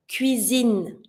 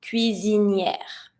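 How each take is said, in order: First: Cuisine ending on a plain n sound; kitchen word. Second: Cuisinière drawn out slowly to its yair ending; stove word. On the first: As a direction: stop cuisine after zeen, two syllables. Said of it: "Finishing with the E". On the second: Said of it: "but a stove". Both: Shown as a demonstration.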